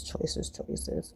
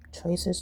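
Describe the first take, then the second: First: Breathy musing under the breath; whispered choices. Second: Said in the usual way. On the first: Shown as a demonstration. Musing to herself over the toaster spot, whispering. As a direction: whisper it to yourself, softer.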